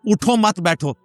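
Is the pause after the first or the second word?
second. The pause comes after the second word.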